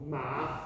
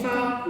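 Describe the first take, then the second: First: MA dropped to mid voice; teacher's mid-tone MA; middle tone. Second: MA high up in the voice; teacher's high MA. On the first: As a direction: say MA softly at middle pitch. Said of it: "in the middle of yours". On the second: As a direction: pitch MA high and level. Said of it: "If we say it high up in the voice". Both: Shown as a demonstration.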